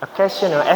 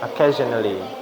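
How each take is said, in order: First: It has a clean s sound, British style. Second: It has a voiced z sound, American style. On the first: "orang British ngomongnya ... S-nya itu bersih" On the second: "Itu kalau Z itu ciri-ciri aksen American"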